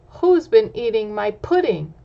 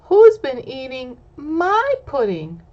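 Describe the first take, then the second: First: Lightly voiced papa bear, louder; a hint of a gruff father bear asking; Papa Bear asks, lightly voiced and louder. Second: Higher, louder little bear voice; Baby Bear asks, higher little voice. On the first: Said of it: "Papa Bear says". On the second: Acted. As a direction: play the small bear, squeaky and eager. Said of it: "Baby Bear says".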